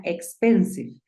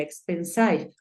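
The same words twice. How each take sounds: First: "expensive" terminado en "-siv" con i corta; correct expensive. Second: "expensive" terminado en "-saiv" con i larga; wrong expensive. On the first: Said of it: "suena expensive". ("expensive" correcto, final "-siv") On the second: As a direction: di "expensive" con final "-saiv", mal a propósito. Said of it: "Si aplicara la norma". ("expensive" mal dicho como "-saiv") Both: Shown as a demonstration.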